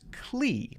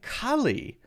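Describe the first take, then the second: First: The ending has one syllable, sounding like 'clee'. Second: The ending has two syllables, sounding like 'cully'. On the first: The speaker calls it right. "It's clee, not cully" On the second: The speaker calls it wrong. "I'm saying cully. But actually, that's not the correct pronunciation"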